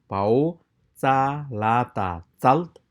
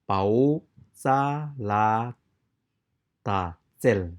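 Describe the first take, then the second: First: The final syllable has an 'a' vowel. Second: The final syllable has an 'e' vowel. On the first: This is the speaker's preferred way. "I pronounce pau, za la ta zal" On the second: Some other people say it this way. "People also pronounce it zel"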